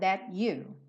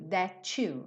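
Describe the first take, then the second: First: The T is a clear stop before you. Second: The T and you merge into one sound. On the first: "That, T, consoante oclusiva" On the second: "that, seguido de you, vire to"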